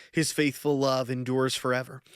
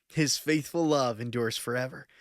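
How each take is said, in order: Both takes have the same delivery.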